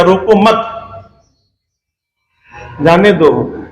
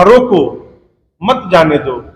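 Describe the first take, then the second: First: "रोको मत" run together and rising, long pause, then "जाने दो"; pause after मत. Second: "रोको" falls as a full command, pause, then "मत जाने दो"; pause after रोको. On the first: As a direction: break after "मत", letting "जाने दो" fall. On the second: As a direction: break after "रोको", keep "मत जाने दो" together. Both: Shown as a demonstration. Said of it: "लेकिन अर्थ का अनर्थ हो गया".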